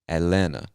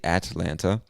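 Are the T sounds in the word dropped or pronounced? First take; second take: dropped; pronounced. First: The T sounds are dropped from the word. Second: The T sounds are clearly pronounced in the word. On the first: This is how most locals say it. "We don't pronounce either one of them" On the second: This is an acceptable alternative. "Now you can say Atlanta, totally fine"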